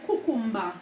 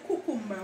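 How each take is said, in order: First: "cucumber" said as kukumba, open final a; Jamaican pronunciation. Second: Said in the usual way. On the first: Shown as a demonstration. Showing viewers how Jamaicans say "cucumber", kukumba. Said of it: "we say cucumber". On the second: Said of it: "We Jamaicans don't say cucumber".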